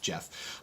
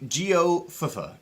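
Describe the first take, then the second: First: The name is said with one syllable. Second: The name is said with three syllables. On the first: The speaker calls it right. "I'm pretty sure it's actually just Jeff" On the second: The speaker calls it wrong. "Geofafa is probably how you pronounce that"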